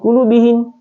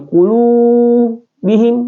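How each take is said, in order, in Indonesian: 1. Vokalnya dibaca pendek, satu ketukan. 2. Vokalnya ditahan dua ketukan. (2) "Cara bacanya juga adalah dua harakat"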